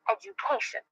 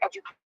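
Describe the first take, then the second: First: "education" with the CA syllable emphasized; stress on third syllable. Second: Said in the usual way. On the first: Shown as a demonstration. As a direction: lean on the "ca" in "education". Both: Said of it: "I'm going to emphasize the third syllable".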